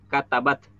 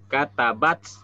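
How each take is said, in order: First: The final t ends cleanly without a hiss. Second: The final t ends with a strong hissing s. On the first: The speaker calls it right. "Jadi cukup kata bat" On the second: The speaker calls it wrong. "jadi seolah-olah ada sin di huruf setelah ta"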